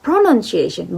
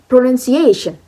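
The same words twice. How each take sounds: First: The stress falls on a syllable other than 'a'. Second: The stress falls on the 'a' syllable. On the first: The speaker calls it wrong. "It's not pronunciation" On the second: The speaker calls it right. "but pronunciation. The A is word stress"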